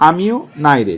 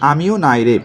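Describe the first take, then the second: No difference in how they are said.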